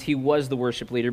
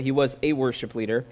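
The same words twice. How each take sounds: First: Said in the usual way. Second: "a" stressed as a full word, against "the". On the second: Real, not acted. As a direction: lean on "a" before "worship leader". Corrects "the" to "a.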